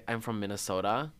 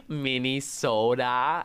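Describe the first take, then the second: First: Said in the usual way. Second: Slow drawn-out Minnesotan Minnesota, Minne-soh-dah; Minnesotan accent. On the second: Retold or imitated. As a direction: stretch "Minnesota" Minnesotan style with a loud sing-song. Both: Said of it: "I'd have the little Oda".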